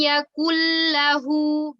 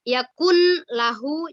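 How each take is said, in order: First: The n merges into the l without nasal sound. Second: The n is pronounced separately before the l. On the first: The speaker calls it right. "tapi walam yakul lahu, begitu ya" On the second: The speaker calls it wrong. "bukan yakun lahu, jangan dipisah ya"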